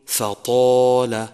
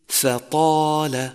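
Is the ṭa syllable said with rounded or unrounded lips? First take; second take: rounded; unrounded. First: The ṭa is said with rounded lips. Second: The ṭa is said with unrounded lips. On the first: The speaker calls it wrong. "ومن الخطأ الشائع أن تقول فطال" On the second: The speaker calls it right. "يجب عدم ضم الشفتين عند النطق به إذا أتى بعده ألف"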